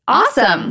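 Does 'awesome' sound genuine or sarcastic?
genuine. It is said with genuine, happy enthusiasm. Something good just happened. "You get a raise"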